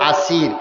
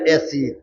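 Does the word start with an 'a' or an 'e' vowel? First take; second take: a; e. First: The first vowel sounds like 'a'. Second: The first vowel sounds like 'e'. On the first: This is the original form of the word. The speaker calls it right. "আসলে শব্দটা হইল আসির" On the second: This is the local dialect form. The speaker calls it wrong. "আমাদের সিলেটি ভাষায় বলে এসির"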